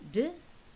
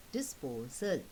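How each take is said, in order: First: "disposal" in three beats, DIS pitched high, PO, SAL; split into syllables. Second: "disposal" closer together, DISPO, short break, SAL; lightly split syllables. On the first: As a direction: break "disposal" up with long pauses. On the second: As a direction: say "disposal" lower, with a small break before SAL. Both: Shown as a demonstration. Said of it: "break up the word into syllables".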